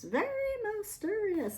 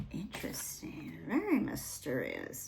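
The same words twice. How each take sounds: First: Mysterious rising on mysterious; high swooping. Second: Hushed, intrigued whisper. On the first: Repeats words with high swoop. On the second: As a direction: breathe it like a secret. Reacting to card in hushed tone. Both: Real, not acted.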